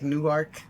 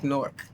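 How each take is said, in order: First: The name is pronounced as it is spelled. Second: The name is squeezed into one syllable, 'Nork'. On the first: This is how outsiders say the name. "as it's spelt, like Newark" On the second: This is how locals say the name. "It's almost like Newark, ... Nork"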